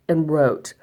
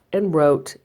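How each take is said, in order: Both takes have the same delivery.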